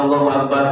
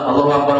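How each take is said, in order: No difference in how they are said.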